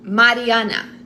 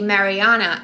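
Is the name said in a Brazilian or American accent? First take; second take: Brazilian; American. First: It is said with a Brazilian Portuguese accent. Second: It is said with an American English accent.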